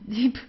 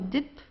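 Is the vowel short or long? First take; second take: long; short. First: The i vowel is long. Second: The i vowel is short. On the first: The speaker calls it right. "so it's a long I" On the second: The speaker calls it wrong. "So you don't say dip"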